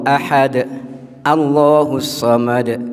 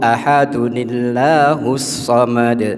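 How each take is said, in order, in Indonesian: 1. Ahad berhenti, dan Allahus dimulai sebagai kata baru. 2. Ahad tersambung dengan tambahan nun menjadi illahus.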